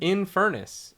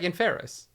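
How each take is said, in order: First: The word is said with the second n sound. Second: The word is said without the second n sound. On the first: The speaker calls it right. "there is a second N" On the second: The speaker calls it wrong. "I've been pronouncing that wrong"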